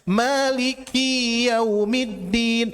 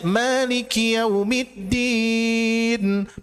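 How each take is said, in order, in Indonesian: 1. Vokal setelah k dalam maliki panjang. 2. Vokal setelah k dalam maliki pendek. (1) "Maliki yau dibaca panjang kiina" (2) "Yang harusnya maliki yaumiddin, pemilik hari pembalasan"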